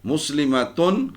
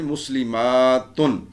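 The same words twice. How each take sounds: First: مسلمتن with a short "a" before a firm final "tun"; slow teacher's مسلمتن, no long vowel before "tun"; singular word form. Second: مسلماتن with "maa" drawn right out before "tun"; slow, teacherly مسلماتن, held "maa", short falling "tun"; long plural ending. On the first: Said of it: "آخری حرف میں کیا آواز پیدا ہوگی؟". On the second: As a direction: stretch the long aa in مسلماتن, very slowly. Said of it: "جمع تو بنانی ہے نا آپ نے". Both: Shown as a demonstration.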